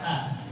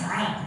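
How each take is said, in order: First: The vowel starts plainly without a throaty squeeze. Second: The vowel starts with a clear throaty squeeze. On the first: The speaker calls it wrong. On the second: The speaker calls it right. "kita baca ain yang jelas"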